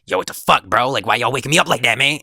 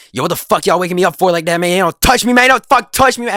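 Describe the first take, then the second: First: Imitating a groggy friend's first, milder complaint, fast; mock annoyance. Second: High, loud, rapid mock tirade, building to a yell; imitated angry outburst. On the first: Woken friend complains to his two classmates, mildly annoyed imitation. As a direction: grumble it quickly as the irritated friend. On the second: Woken friend tells classmates not to touch him, escalating angry yell. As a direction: imitate a friend blowing up, louder and higher as it goes. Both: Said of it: "working himself up in a way".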